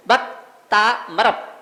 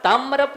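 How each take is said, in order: First: भक्तामरप slowly in parts: bhakt, taa, marap; correct pronunciation. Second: तामरप run together with a heavy doubled m, taam-marap; wrong pronunciation. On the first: Teacher correcting students after the wrong take, correct pronunciation. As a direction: hold long taa apart from marap in भक्तामरप. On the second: Teacher showing students what not to say, wrong pronunciation. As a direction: lean on the m in तामरप. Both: Shown as a demonstration. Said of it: "तामरप नहीं बोलना है".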